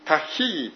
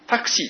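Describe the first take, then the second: First: The middle consonant sounds like a breathy 'h'. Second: The middle consonant sounds like 'ks'. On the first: "原文でこんなふうに発音されています" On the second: "英語式のアルファベットで読みますと"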